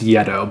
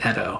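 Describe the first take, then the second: First: The name begins with a 'y' sound. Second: The name begins with a plain vowel sound. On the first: This is how board gamers commonly say it. The speaker calls it wrong. "it is commonly pronounced Yeto by board gamers" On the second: This is the correct pronunciation. The speaker calls it right. "I think the Y is silent"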